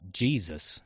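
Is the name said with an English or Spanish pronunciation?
English. The name is said the English way. The name refers to the son of God. "en Carolina del Sur solo hay un Jesús, el hijo de Dios. Y claro, se llama Jesus"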